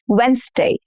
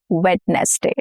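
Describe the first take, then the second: First: The d is silent, giving fewer syllables. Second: The d is pronounced, giving more syllables. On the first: The speaker calls it right. "We are shortening the number of syllables here" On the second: The speaker calls it wrong. "not Wednesday"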